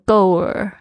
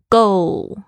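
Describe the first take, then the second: First: The word ends with a curled R-like sound. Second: The word ends with a clear final L sound. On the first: The speaker calls it wrong. "很多同学呢会不小心卷起来，就变成goer" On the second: The speaker calls it right. "它的拼法是goal，它是目标goal"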